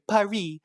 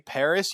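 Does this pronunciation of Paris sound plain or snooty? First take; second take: snooty; plain. First: Paris is said in a snooty, affected way. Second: Paris is said in a plain, ordinary way.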